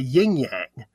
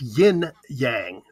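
First: Both parts end with the same ng sound. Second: The first part ends with an n sound. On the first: The speaker calls it wrong. "a lot of people say yin-yang, but it's not" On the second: The speaker calls it right. "it's yin-yang"

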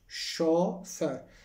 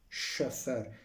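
First: The vowel is said as a plain vowel. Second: The vowel is said as a dotted vowel. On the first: The speaker calls it right. "این تلفظ درستش شوفر هستش" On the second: The speaker calls it wrong. "به شکل این که دوتا بالاش نقطه داره میخونن"

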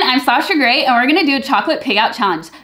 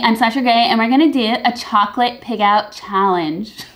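First: It is said with high, bubbly energy. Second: It is said with fairly low, subdued energy. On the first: The speaker calls it right. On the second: The speaker calls it wrong.

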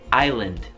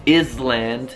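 First: The s sound is silent in the middle. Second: The s sound is pronounced in the middle. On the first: The speaker calls it right. "diciamo island" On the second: The speaker calls it wrong. "Island non si dice"

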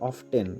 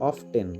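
The two takes are said the same way.

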